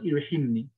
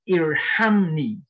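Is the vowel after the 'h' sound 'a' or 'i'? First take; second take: i; a. First: The vowel after the h is i. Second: The vowel after the h is a. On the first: The speaker calls it wrong. "So it is not Irhimni" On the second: The speaker calls it right. "The fi'l amr is irham, the command form"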